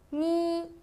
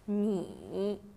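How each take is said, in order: First: The pitch stays high and level. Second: The pitch dips low, then rises.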